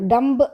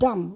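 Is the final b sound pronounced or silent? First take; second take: pronounced; silent. First: The final b sound is pronounced. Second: The final b sound is silent. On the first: The speaker calls it wrong. "డంబ్ అనకూడదు" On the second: The speaker calls it right. "బి అనేది silent కాబట్టి మనం డమ్ అని అనాలా"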